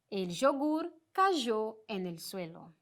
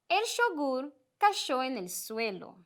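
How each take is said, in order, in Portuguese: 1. O y é pronunciado como um som zh. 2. O y é pronunciado como um som sh. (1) "esse j" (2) "este som mais de sh"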